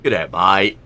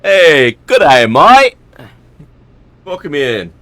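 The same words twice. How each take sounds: First: Aussie greeting. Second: Loud, high Australian "good day, mate"; Aussie greeting. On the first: Streamer retrying his Australian greeting for a viewer. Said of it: "The second one was better". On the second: Streamer greeting a viewer in a loud Australian accent. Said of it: "I like that one better". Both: Shown as a demonstration.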